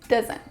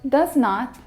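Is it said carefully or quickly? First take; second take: quickly; carefully. First: It is said very quickly and less clearly. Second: It is said slowly and clearly.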